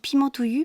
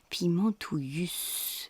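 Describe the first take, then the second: First: The word ends without a sounded final s. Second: The word ends with a sounded final s. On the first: The speaker calls it wrong. "c'est vrai que j'ai dit Pimentouillu" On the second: The speaker calls it right. "Il y a un S à Pimentouillu"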